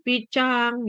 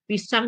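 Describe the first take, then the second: First: The word begins with a childish ch sound. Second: The word begins with a plain s sound. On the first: "Huruf S diganti jadi C" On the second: "Huruf S diganti jadi C"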